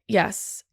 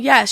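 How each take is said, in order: First: It is said ruefully, with reluctance. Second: It is said in a plain, willing way.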